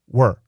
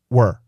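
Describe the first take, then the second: First: It is shortened to sound like 'were'. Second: It is shortened to sound like 'were'.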